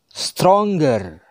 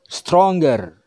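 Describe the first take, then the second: No difference in how they are said.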